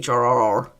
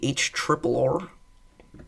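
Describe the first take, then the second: First: Each R is said separately, letter by letter. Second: The three Rs are said as triple R. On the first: The speaker calls it wrong. "It's not pronounced the H R R R" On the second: The speaker calls it right. "We want the H triple R"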